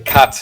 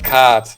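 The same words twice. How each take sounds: First: The vowel is said short. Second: The vowel is said long. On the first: "they shorten the vowel because there's no long A" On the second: "and not cat"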